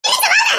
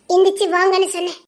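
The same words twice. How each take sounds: First: High-pitched impatient shout; shouted order. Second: Said in the usual way. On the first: Acted. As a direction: yell the command, pitch shooting up. Repeated order, now shouted. (பொறுமையிழந்த உரத்த கட்டளை)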